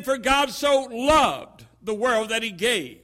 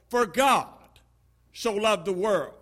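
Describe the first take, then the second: First: "so" lifted and held as the peak of the line; stress on so. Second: For God so loved the world with God leaned on and falling; stress on God. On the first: Preacher showing the next reading, stress on "so". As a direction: push the word "so" hardest. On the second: Preacher demonstrating emphasis, stress on "God". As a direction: land the weight on the word "God". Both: Shown as a demonstration. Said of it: "with emphasis being placed on each of these ten particular".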